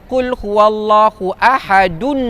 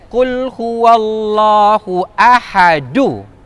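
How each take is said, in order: First: The last word ends with an n sound. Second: The last word ends on a vowel, without n. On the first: The speaker calls it wrong. "Jangan baca qul huwallahu ahadun" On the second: The speaker calls it right. "kita akan baca satu je tinggal"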